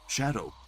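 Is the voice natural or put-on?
natural. It is said in a normal everyday voice. "That's just my regular voice"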